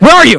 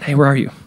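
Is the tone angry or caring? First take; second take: angry; caring. First: It sounds angry and threatening. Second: It sounds warm and caring.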